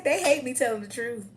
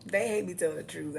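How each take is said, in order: First: Higher and louder gloat. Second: Said in the usual way. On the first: Acted. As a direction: sing it out to the haters. Defiant boast to haters.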